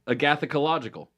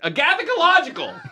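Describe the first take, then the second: First: The word is said calmly, not shouted. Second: The word is shouted loudly.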